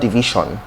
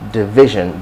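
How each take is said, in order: First: It is pronounced the common local way. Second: It is pronounced the standard way. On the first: The speaker calls it wrong. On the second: The speaker calls it right.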